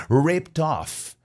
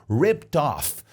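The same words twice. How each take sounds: The two takes are said the same way.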